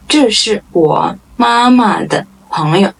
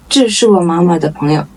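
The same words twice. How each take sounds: First: Word by word, with small gaps. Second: Quick, joined-up model sentence; natural-pace repeat. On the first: Model sentence, slow first take. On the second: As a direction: run the words together fluently. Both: Shown as a demonstration.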